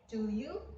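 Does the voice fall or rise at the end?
rise. The voice rises at the end.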